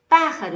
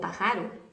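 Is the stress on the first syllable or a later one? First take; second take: first; later. First: The stress is on the first syllable. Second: The stress is on a later syllable. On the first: The speaker calls it right. "uno, dos, tres, posición tres" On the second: The speaker calls it wrong. "Yo no digo pájaro"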